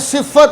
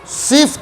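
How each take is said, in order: First: The f sound is doubled before the vowel. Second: The f sound has no vowel after it. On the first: "फ़ा को मुशद्दद करना ये भी गलत" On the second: "फ़ा को साकिन करना ये भी गलत"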